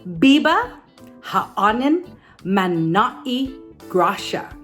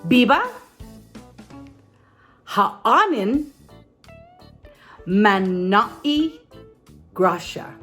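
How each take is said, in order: First: It is said at normal speed. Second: It is said a little more slowly.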